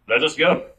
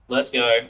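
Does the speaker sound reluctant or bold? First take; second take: bold; reluctant. First: It sounds bold and eager. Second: It sounds weary and reluctant.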